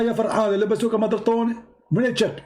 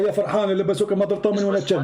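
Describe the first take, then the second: First: It is said slowly. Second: It is said at normal speed.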